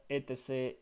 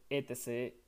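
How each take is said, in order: Both takes have the same delivery.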